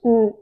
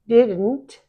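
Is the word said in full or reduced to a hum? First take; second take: hum; full. First: The word is reduced to a short nasal hum. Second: The word is said in full with clear consonants.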